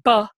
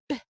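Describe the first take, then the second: First: The consonant is followed by an uh vowel. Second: The consonant is said alone with no vowel. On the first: The speaker calls it wrong. "we don't say buh" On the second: The speaker calls it right. "we say b"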